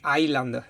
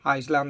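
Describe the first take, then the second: First: It is said in a slurred, stoned-sounding way. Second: It is said in an ordinary, plain way. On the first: "in straffattonesco" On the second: "come che lo può dire una persona normale"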